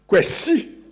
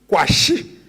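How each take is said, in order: First: The name is pronounced in the Twi way. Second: The name is pronounced in the Ga way. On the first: "A Twi or Ashanti rendering" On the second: "A Ga or Ewe rendering of the name would be Kwashi"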